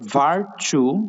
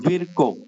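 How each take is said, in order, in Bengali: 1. নামটি Varchu-র মতো উচ্চারিত হয়। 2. নামটি Virko-র মতো উচ্চারিত হয়। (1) "একটা হচ্ছে ভার্চু" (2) "সঠিক উচ্চারণ হচ্ছে ভিরকো"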